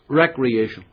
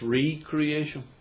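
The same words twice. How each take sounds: First: It is said as the everyday word recreation. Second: It is split into re- and creation. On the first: It means leisure or amusement. "We don't quite pronounce it as it's spelt" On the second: It means being made anew. "look at the word"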